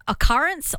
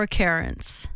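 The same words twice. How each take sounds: First: "occurrence" with middle vowel like "cup"; first pronunciation option. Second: "occurrence" with middle vowel like "her"; second pronunciation option. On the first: Host offering a caller the first option, contrasted pronunciation. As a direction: say "occurrence" as uh-CUH-rence, like "currents". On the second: Host offering a caller the second option, contrasted pronunciation. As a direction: say "occurrence" as uh-KER-ence. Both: Shown as a demonstration. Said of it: "how do you say the word".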